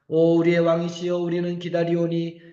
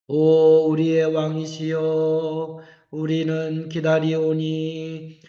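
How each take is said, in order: First: It is read at a fast pace. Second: It is read at a slow pace. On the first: The speaker calls it wrong. "제가 지금 빨리 읽느냐고 빨리 읽느냐고 읽는 것처럼" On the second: The speaker calls it right. "원래는 이거보다 훨씬 더 느려요"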